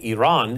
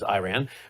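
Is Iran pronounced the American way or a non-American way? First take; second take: non-American; American. First: Iran is said in a non-American way. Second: Iran is said in the usual American way. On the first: This is the form a guest prefers. "as she likes to prefer I say it" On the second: This is how Americans usually say it.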